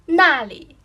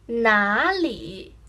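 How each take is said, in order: First: The first syllable has a sharply falling tone. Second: The first syllable has a low dipping tone. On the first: It means there. "First tone goes down, very formative" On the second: It means where. "third tone"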